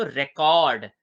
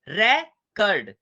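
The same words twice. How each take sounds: First: रिकॉर्ड as re-KORD, with a full, long O; second-syllable stress. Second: रेकर्ड broken slowly into RE...kard; first-syllable stress. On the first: Teacher showing students the verb रिकॉर्ड, second-syllable stress. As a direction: put the weight on KORD in रिकॉर्ड. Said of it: "verb के तरीके से बोलेंगे तो फिर focus". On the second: Teacher repeating the noun रेकर्ड for students, slow first-syllable stress. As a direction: hit the RE of रेकर्ड, then let kard fall. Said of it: "पहले पे focus करेंगे तो क्या कहेंगे". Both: Shown as a demonstration.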